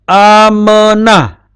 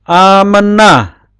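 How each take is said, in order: No difference in how they are said.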